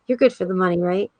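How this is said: It is said in a kind, gentle tone.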